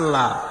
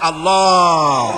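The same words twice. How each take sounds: First: The vowel is said with flat, unrounded lips. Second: The vowel is said with rounded lips. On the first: The speaker calls it wrong. "কেউ বলে না আল্লাহ" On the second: The speaker calls it right. "মুখটা একটু গোল হয়ে যাবে"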